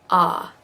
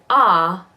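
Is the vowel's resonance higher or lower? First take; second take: lower; higher. First: The vowel has a lower, deeper resonance. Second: The vowel has a higher, brighter resonance. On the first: "a little bit lower of a of a resonance" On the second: "up here in like Australian or British"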